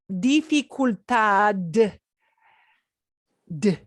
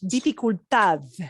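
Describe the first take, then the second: First: The final D is a hard, clear d. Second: The final D is soft, like th. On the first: The speaker calls it wrong. "sounds like, wow, foreign accent" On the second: The speaker calls it right. "should sound like a T H"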